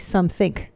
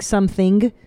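First: The word ends with a k sound. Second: The word ends with an ng sound. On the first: "I put a K instead of an ing" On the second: "instead of saying something"

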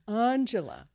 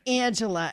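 First: The name is said with a standard accent. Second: The name is said with a Boston accent. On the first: The speaker calls it right. "it's Angela" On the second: The speaker calls it wrong. "it's not Angela"

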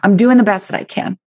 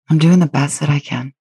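First: It is said in a defensive, pushing tone. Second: It is said in a gentle, kind tone. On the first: The speaker is justifying themselves against outside judgment. The speaker calls it wrong. "I'm not pushing against some outside authority or Instagram. It's not like" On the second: The speaker is being compassionate toward themselves. The speaker calls it right. "notice the energy in my tone when I say this"

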